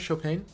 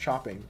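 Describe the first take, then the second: First: It starts with a soft 'sh' sound. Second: It starts with a hard 'ch' sound. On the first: The speaker calls it right. "I know it's pronounced not C H" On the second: The speaker calls it wrong. "It's not chopping"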